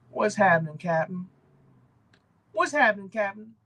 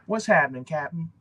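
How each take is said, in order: First: Lightly voiced, higher upbeat greeting; a friendly YouTuber hailing his viewers, a little higher; C B Hunts impression. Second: Said in the usual way. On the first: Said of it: "That may not have been a great impression". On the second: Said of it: "that's his line".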